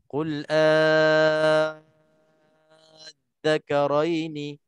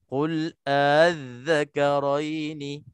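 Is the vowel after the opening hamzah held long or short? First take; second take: long; short. First: The vowel is stretched long, about six beats. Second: The vowel is short, with a softened hamzah. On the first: "enam harakat" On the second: "Dua harakat saja tetapi beserta dengan tashil"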